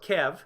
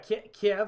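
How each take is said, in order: First: The name is said the local, native way. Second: The name is said the familiar English way. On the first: The speaker calls it right. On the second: The speaker calls it wrong.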